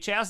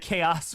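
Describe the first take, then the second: First: The word begins with a ch sound. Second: The word begins with a k sound. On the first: "I say chaos ... The cha is what does it" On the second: "instead of chaos"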